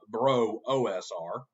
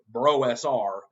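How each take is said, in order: First: A separate O is spoken between bro and S. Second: Bro runs straight into the letters S R. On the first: The speaker calls it wrong. "not bro O S R" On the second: The speaker calls it right. "it's bro S R"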